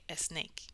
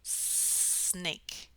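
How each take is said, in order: First: A short vowel comes before the S. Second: It starts directly with a long S. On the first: The speaker calls it wrong. "the wrong way to pronounce this would be to say a snake" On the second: The speaker calls it right. "just extend that S and then go into the rest of the word"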